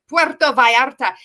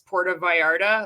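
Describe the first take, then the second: First: It is said with a put-on Spanish accent. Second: It is said with a plain English accent.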